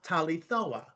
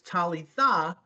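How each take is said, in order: First: The word ends in an 'o' vowel. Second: The word ends in an 'ah' vowel. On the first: This is the Western Aramaic form. The speaker calls it wrong. "Western is very o" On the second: This is the Eastern Aramaic form. The speaker calls it right. "Eastern is very ah"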